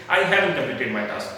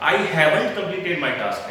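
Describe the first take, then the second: First: "haven't" squeezed to havn, no t; low-effort haven't. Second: "haven't" with full second syllable and t; effortful haven't. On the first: Teacher showing the easier take, reduced haven't. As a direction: slide through "haven't" with least effort. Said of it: "मैं efforts कम लगा रहा हूँ". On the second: Teacher contrasting two takes for learners, full haven't. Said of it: "आपको difference feel हो रहा होगा". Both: Shown as a demonstration.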